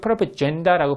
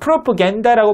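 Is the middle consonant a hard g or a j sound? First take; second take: j sound; hard g. First: The middle consonant is a j sound. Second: The middle consonant is a hard g sound. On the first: "프로포젠다라고 발음해도 돼요" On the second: "프로포겐다라고 발음해도 되고"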